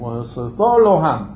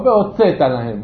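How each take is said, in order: First: The verb stress is on the last syllable. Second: The verb stress is on the second-to-last syllable. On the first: The speaker calls it right. "גם בעתיד" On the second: The speaker calls it wrong. "לא והוצאת להם"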